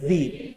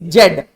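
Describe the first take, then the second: First: The letter is pronounced as zee. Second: The letter is pronounced as zed. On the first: The speaker calls it right. "The right pronunciation is जी" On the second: The speaker calls it wrong. "जेड is a wrong pronunciation"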